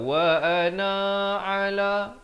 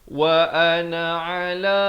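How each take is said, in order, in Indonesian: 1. Vokal dalam 'na' dibaca panjang. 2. Vokal dalam 'na' dibaca pendek. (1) "Jangan sesekali kita baca wa ana ala, itu tak betul" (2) "Yang betulnya wa ana ala"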